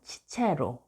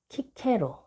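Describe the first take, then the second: First: The name begins with a ch sound. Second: The name begins with a hard k sound. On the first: This is the Roman pronunciation. "로마 발음 치체로" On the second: This is the spelling used in Korean books. "우리나라 책에는 키케로"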